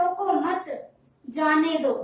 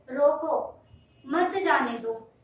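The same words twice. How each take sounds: First: रोको मत run together, pause, then जाने दो; pause after मत. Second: रोको alone, pause, then मत जाने दो together; pause after रोको. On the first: Teacher showing how a moved comma changes meaning, pause after मत. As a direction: break firmly after मत, before जाने दो. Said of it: "मैंने विराम चिन्ह की जगह चेंज कर दिया". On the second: Teacher showing pause after the word रोको changes meaning, pause after रोको. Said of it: "ठहराव जो है रोको शब्द के बाद आया". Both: Shown as a demonstration.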